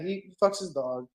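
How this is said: It is said in a casual, offhand tone. The news is treated as unremarkable. The speaker calls it wrong. "so flippantly"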